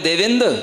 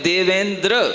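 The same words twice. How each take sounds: First: The final 'dr' cluster is dropped or softened. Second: The final 'dr' cluster is carefully, fully pronounced. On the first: This is the Prakrit form. "जब प्राकृत में बोलेंगे देवेंद्र तो प्राकृत हो गई" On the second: This is the Sanskrit form. "संस्कृत में बोलेंगे तो हमें देवेंद्र ऐसा बोलना पड़ेगा"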